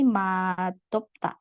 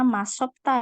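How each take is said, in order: First: The second consonant is a d sound. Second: The second consonant is an s sound. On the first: The speaker calls it right. "tapi madopta. Dia akan berubah jadi D" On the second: The speaker calls it wrong. "Ini tidak dibaca masopta ya"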